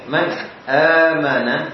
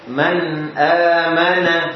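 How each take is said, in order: First: The sound is cut off between the parts. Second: The sound flows on without a break. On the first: The speaker calls it wrong. "bukan man amana tadi" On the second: The speaker calls it right. "suaranya nyambung"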